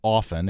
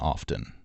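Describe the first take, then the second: First: The T in the middle is silent. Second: The T in the middle is pronounced. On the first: This is the refined form the Queen used. The speaker calls it right. "the classy version was often" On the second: This is an overcorrection by people trying to sound classy. The speaker calls it wrong. "people were were were overcorrecting by saying often"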